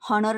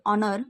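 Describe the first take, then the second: First: The word starts with an h sound. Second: The word starts directly with a vowel. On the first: The speaker calls it wrong. "हॉनर नसतो याचा उच्चार" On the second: The speaker calls it right. "या शब्दाचा उच्चार होतो ऑनर"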